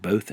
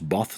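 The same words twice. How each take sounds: First: The vowel does not rhyme with 'moth'. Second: The vowel rhymes with the one in 'moth'. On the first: This is how the word is actually said. "not both" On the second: This is what spelling rules would predict. "according to rules, should it should be pronounced both"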